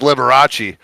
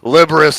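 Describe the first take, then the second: First: The name ends with an 'ah-chee' sound. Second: The name ends with an 'us' sound. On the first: The speaker calls it right. "it's [name]" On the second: The speaker calls it wrong. "how badly I just fucking pronounced that"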